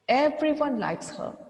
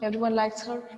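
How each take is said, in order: First: It is read slowly with clear pauses. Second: It is read quickly with no clear pauses. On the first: The speaker calls it right. "if I read it in another way with some poses and pictures" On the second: The speaker calls it wrong. "Could you catch any word?"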